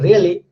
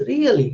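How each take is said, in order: First: Said in the usual way. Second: High, swooping "Really?" of surprise. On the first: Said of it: "It's like a matter of fact". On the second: Shown as a demonstration. Teacher contrasting meanings by pitch, surprised "Really?". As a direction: ask it with a big surprised pitch arch. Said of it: "It's a surprise".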